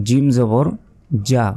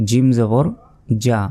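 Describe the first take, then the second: The two takes are said the same way.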